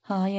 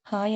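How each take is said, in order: First: Said in the usual way. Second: "hi" with a small smile; a smiled, shy "hi"; shy smiling hi. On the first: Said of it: "నార్మల్గా చెప్పేసి". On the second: A narrator's reading. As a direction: bride greeting her husband shyly, smiling. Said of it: "చిన్నగా smile ఇస్తూ".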